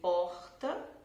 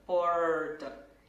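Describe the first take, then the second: First: The R does not sound like English R. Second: The R sounds like an English R. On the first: This is the speaker's own way of saying it. "eu pronuncio porta" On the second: People in some other regions say it this way. "O som do R bem parecido é, com o som usado no inglês"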